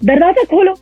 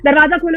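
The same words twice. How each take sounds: First: The voice shakes back and forth while speaking. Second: The voice stays steady without any shaking. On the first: The speaker calls it right. "आपकी आवाज़ भी उसके साथ ऐसे-ऐसे आगे-पीछे होगी" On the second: The speaker calls it wrong. "आप ऐसे नहीं बोल सकते"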